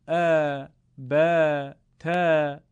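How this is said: The letters are said in an Arabic accent. The speaker calls it right.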